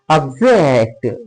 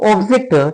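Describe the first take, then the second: First: The stress is on the second syllable. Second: The stress is on the first syllable. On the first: It is a verb meaning to disagree. "that means here the verb" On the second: It is a noun meaning a thing. "Here O. ... Here it is the noun"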